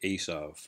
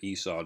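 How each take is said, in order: First: The name ends with a V sound. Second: The name ends in a vowel, without V. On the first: "They pronounce the V sound, and they say Esau" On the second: "They don't say they don't pronounce it Esau"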